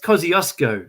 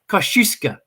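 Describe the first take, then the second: First: It is said the usual Australian English way. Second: It is said the Polish way. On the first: The speaker calls it wrong. "it's not pronounced Kosciuszko" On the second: The speaker calls it right. "in Poland, it's pronounced Kosciuszka"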